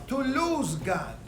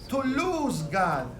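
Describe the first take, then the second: Both takes have the same delivery.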